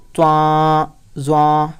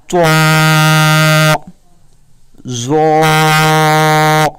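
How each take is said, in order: First: تواں زواں said quick and thin, the common mistake; mock wrong reading. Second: تواں زواں drawn out very slowly, full and loud; correct heavy reading. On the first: Teacher imitating how people misread. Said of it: "اکثر لوگ پڑھتے ہیں". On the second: Teacher showing the right way to recite. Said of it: "آپ نے اسے پڑھنا ہے". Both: Shown as a demonstration.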